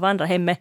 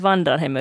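First: The phrase is said with an extra stress. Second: The phrase is said with a single stress. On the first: "att det kom liksom en betoning till" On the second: "han sa inte vandrar hemme"

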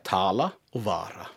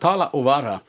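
First: The first syllables are lengthened. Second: The first syllables are short. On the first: This is the form used in Iceland today. "Det har de inte gjort på Island. Då heter det ungefär" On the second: This is the old form kept in Finnish dialects. "det är så sa man"

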